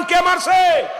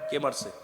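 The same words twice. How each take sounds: First: Full-throated shout, much higher and louder; loud call-and-response shout. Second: Faint, low call-back; a half-hearted mumble from the crowd; quiet, hesitant answer; weak reply. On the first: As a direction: belt it out as the preacher demands. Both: Real, not acted. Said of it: "আরো জোরে বলেন".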